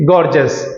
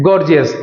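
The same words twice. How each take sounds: First: गॉर्जस as two syllables, "gor-jus"; गॉर्जस with the "ee" dropped, "gor-jus"; correct pronunciation. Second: गॉर्जियस with a full three-syllable "gor-jee-us"; गॉर्जियस as "gor-jee-us", with the extra "ee"; wrong pronunciation. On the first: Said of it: "हम क्या बोलेंगे". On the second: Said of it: "हम इसे गॉर्जियस नहीं बोलेंगे". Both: Shown as a demonstration.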